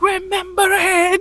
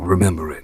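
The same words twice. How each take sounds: First: It is said loudly, yelled out. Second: It is said quietly, without yelling. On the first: The character screams the moment out. The speaker calls it wrong. "opposed to being like" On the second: The character feels the moment inwardly. The speaker calls it right. "It felt so much better when he was"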